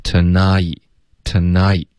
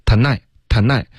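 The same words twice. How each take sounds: First: "tonight" sliding slowly from ah to ee; gliding diphthong. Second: "tonight" with the vowel cut short like 奈; short diphthong. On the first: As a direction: stretch the vowel of "tonight，tonight" into a full glide. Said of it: "一定要有一个滑动". (“tonight”的双元音从啊慢慢滑到一) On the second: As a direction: say "tonight，tonight" as a short 奈, no full glide. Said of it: "奈的音就错了". (“tonight”读成短促的“奈”，元音不滑动) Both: Shown as a demonstration.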